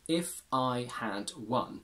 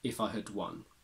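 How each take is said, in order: First: The word had is said fully and clearly. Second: The word had is said in a reduced weak form.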